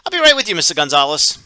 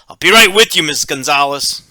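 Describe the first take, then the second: First: The voice sounds cheerful and friendly. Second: The voice sounds frustrated and annoyed. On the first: The worker is ready and willing but delayed. "says cheerfully" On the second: The worker is frustrated and bothered. "can communicate frustration and annoyance"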